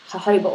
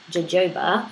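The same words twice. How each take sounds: First: Spanish-style H for the Js in jojoba; jojoba with H sounds. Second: Both Js in jojoba hard, as in "joke"; jojoba as spelled. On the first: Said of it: "or maybe pronounced jojoba". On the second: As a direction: say jojoba with English J sounds, "juh-JOE-ba". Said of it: "spelled jojoba". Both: Shown as a demonstration.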